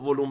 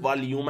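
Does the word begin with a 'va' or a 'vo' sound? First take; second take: vo; va. First: It begins with a 'vo' sound, like 'volum'. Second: It begins with a 'va' sound, like 'valyum'. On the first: This is the everyday Persianized form. "حالا ولوم بهش میگن" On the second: This is the original English form. "اگر بخوای تلفظ درست داشته باشی"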